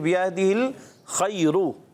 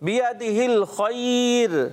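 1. ر بھاری ہے، اس کے بعد ایک مصوتہ بولا جاتا ہے۔ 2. ر ہلکی ہے، اس پر وقف ہوتا ہے۔ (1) "اگر نہیں ملاتے آپ رخ وقف نہیں کرتے تو پڑھیں گے ... پور پڑھیں گے" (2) "جب وقف کریں گے ... اس لیے بیادہ الخیر ... را باریک ہو جائے گی"

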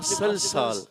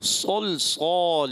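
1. پہلی آواز سادہ، ہلکی س ہے۔ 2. پہلی آواز بھاری، مفخم ص ہے۔ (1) "اب یہ صاد ہے سین نہیں ہے" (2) "یہ صاد ہے"

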